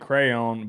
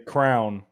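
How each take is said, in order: First: The word is said with two syllables. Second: The word is said as one syllable, like crown. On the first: This is how the speaker says it today. "I say now I say crayon" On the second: This is a Southern way the speaker said it as a child. "when I was growing up, I'd say crown"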